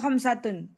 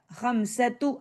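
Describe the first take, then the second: First: The word ends with an n sound. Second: The word ends without an n sound. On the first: The speaker calls it wrong. "Jangan bilang khamsatun. La" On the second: The speaker calls it right. "Mudhaf, mudhaf ilaih"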